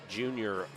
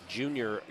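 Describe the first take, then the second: No difference in how they are said.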